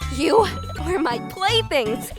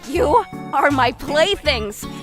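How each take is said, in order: First: It is delivered with voice cracks and emotion. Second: It is delivered flatly, without cracks or emotion. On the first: The speaker calls it right. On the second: The speaker calls it wrong.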